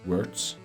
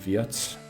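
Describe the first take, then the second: First: The name is said with an English pronunciation. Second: The name is said with a German pronunciation. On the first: "I love pronouncing it in English" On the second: "rather than"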